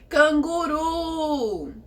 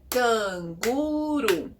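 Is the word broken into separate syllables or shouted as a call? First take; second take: shouted; separate syllables. First: The word is shouted, with the last syllable drawn out. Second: The word is split into separate, evenly spaced syllables. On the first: "gritar como se estivéssemos chamando ela" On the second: "se fôssemos separar as sílabas batendo palmas"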